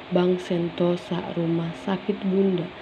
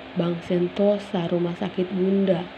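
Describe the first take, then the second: The two takes are said the same way.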